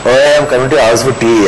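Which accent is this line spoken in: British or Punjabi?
Punjabi. It is spoken in a Punjabi accent. "how do I do that in a Punjabi accent?"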